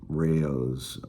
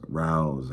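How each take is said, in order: First: The name is said with two syllables. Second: The name is said as one syllable. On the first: This is how other people say the name. "They say it's Rayo's" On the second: This is the speaker's own way of saying the name. "I call it Rouse"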